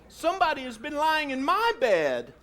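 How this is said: It is said in a medium-sized bear voice.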